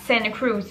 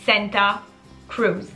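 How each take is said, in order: First: The t after the n is dropped. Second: The t after the n is clearly pronounced. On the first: "tout le monde appelait ça Santa Cruz" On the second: "qui s'écrit Santa Cruz"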